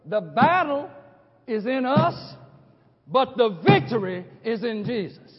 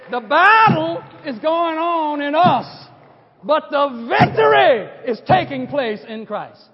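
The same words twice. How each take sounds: First: Said in the usual way. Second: Louder and slow, shouting the word victory; preached loud. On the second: Shown as a demonstration. Preacher quoting his own point to the congregation, slow booming proclamation. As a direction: proclaim it like a battle cry. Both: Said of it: "This is the way I said it".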